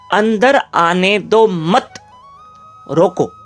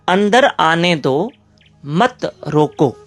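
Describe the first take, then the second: First: The pause comes after 'मत'. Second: The pause comes after 'दो'.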